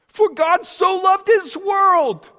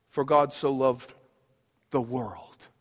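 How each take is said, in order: First: Proclaimed scripture. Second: Hushed scripture. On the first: Same verse proclaimed again. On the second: Quoting John 3:16 hushed. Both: Real, not acted.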